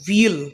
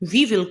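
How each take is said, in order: First: It is said as one contracted word. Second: It is said as two full words.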